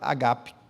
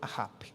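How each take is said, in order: First: The middle consonant is a hard g. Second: The middle consonant is a guttural sound. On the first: The speaker calls it wrong. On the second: The speaker calls it right. "na verdade se pronuncia como ahap"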